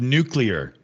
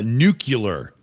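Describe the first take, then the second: First: The word is said with a 'clear' ending. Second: The word is said with a 'cular' ending. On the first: The speaker calls it right. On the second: The speaker calls it wrong.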